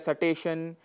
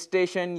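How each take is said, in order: First: An extra vowel sound is added to the word. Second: The word is said with no extra vowel. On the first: The speaker calls it wrong. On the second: The speaker calls it right.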